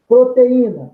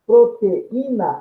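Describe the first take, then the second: First: Said in the usual way. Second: Proteína said slowly, pro-te-í-na with a break before í; slow it down so the pause before í is heard; syllables split slowly. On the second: Shown as a demonstration. (proteína devagar, com pausa antes do í) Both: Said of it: "eu tenho nesse encontro vocálico proteína uma pausa".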